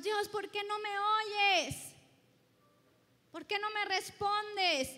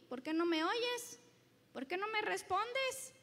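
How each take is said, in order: First: Louder and higher, a mock complaint to God; pleading believer. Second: Loud, pointed retort turned back on the listener; God answering back. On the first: Preacher imitating a believer nagging God, mock pleading. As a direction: whine it like a frustrated petitioner. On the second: Acted. Preacher voicing God turning the complaint around, pointed. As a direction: throw the question back firmly. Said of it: "Y Dios dice".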